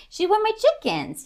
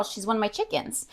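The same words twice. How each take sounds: First: High, playful sing-song repeat. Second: Said in the usual way. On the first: Shown as a demonstration. Owner lilting a pet name toward her dog, sing-song. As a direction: lilt it way up like a cute refrain.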